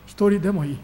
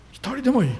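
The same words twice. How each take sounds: First: Said in the usual way. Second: Emphatic repeat. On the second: Shown as a demonstration.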